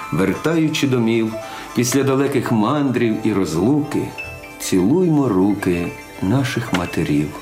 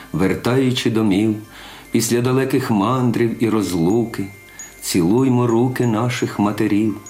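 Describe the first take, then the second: Both takes have the same delivery.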